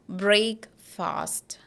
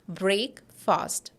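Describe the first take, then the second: Both takes have the same delivery.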